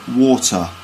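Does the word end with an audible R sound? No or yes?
no. The word ends without any R sound. "but water"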